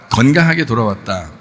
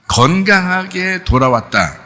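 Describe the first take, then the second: First: Said in the usual way. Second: 건강하게 stretched slow and raised; slow emphatic. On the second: Shown as a demonstration. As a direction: draw out 건강하게 돌아왔다 slowly, pitched up. (건강하게를 천천히 높여 강조) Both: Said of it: "여러분이 생각할 때는".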